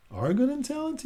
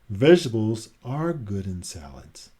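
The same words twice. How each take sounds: First: "Are good in salads?" pitched high with a rising, doubtful question tune; high, skeptical question. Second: Said in the usual way. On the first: Shown as a demonstration. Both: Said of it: "He's asking a question".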